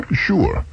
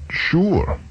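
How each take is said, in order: First: High sure. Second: Retold sure. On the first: Acted. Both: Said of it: "I said".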